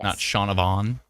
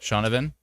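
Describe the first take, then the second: First: The last syllable is said as 'von'. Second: The last syllable is said as 'ven'. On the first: The speaker calls it wrong. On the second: The speaker calls it right. "pronounce it V E N, Ven"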